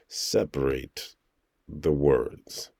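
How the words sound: Each word is spoken apart with small breaks. The speaker calls it right. "then I'll say ... I just really try to make sure to separate the words"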